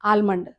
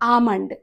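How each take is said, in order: First: An L sound is pronounced before the M. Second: No L sound; a long ah goes into M. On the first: The speaker calls it wrong. "ఆల్మండ్ అంటారు మన వాళ్ళు చాలామంది" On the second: The speaker calls it right. "కానీ అది ఆల్మండ్ కాదు"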